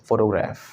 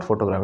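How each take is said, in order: First: "photograph" as FO-to-graef, falling; "photograph" in one flow with a short-A ending; corrected pronunciation. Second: "photograph" as foto-GRAAF with long AA; "photograph" the old way, ending in graaf; wrong pronunciation. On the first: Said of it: "it's photograph". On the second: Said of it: "It's not photograph". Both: Shown as a demonstration.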